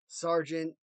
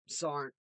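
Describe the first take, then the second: First: Every syllable of the word is clearly enunciated. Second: The word is said fast with sounds dropped.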